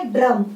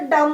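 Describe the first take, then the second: First: ड्रम with a clear र after ड; with the r sound. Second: डम said with no र; reading without the mark. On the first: Teacher reading the word with the mark. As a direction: bring the र into ड्रम. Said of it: "उसका उच्चारण तुरंत बदल गया". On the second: Teacher reading the word without the mark. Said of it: "ऐसे ही पढ़ेंगे तो डम हो जाएगा". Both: Shown as a demonstration.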